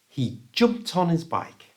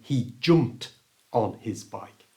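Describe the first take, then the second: First: The t sound links smoothly into the next word. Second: Each word is said separately, without linking. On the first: The speaker calls it right. "Hopefully you can hear how much faster and natural that sounds" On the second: The speaker calls it wrong. "than he jumped on his bike"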